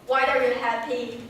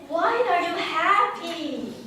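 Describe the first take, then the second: First: It is said in a flat, even voice. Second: It is said in a lively, varied voice. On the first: The speaker calls it wrong. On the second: The speaker calls it right.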